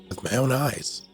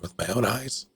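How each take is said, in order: First: The voice falls at the end like a statement. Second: The voice rises at the end like a question. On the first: It is an answer stating a fact. The speaker calls it wrong. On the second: It asks whether it was seen personally. The speaker calls it right.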